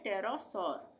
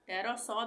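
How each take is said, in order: First: The word ends with an R sound. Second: The word ends without an R sound. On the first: "आर का उच्चारण के साथ भी पढ़ सकते हैं" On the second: "आर का उच्चारण नहीं करेंगे"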